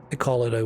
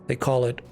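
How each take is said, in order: The two takes are said the same way.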